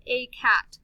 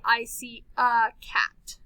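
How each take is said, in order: First: "a" said as the long letter name "ay", slowly, in "a cat". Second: "a" reduced to a short "uh", slowly, in "I see a cat"; schwa a. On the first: Teacher shows the wrong way to read "a", saying "ay". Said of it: "why don't we say A". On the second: Teacher shows reading "a" as "uh" in a sentence. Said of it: "we say a". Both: Shown as a demonstration.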